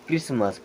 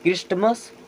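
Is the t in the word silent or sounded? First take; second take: silent; sounded. First: The t sound is left out entirely. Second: The t sound is pronounced in the middle. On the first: The speaker calls it right. "टी होता है silent" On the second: The speaker calls it wrong. "No"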